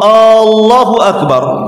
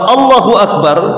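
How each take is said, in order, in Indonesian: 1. Vokal pertamanya dipanjangkan. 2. Vokal pertamanya diucapkan pendek. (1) "dipanjangkan alifnya ... apakah Allah Maha Besar?" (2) "ya Allah Maha Besar"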